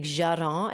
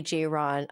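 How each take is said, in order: First: "Jaron" in a put-on French accent. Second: Said in the usual way. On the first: Shown as a demonstration. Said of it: "like, a French accent". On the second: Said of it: "I wanna say it in".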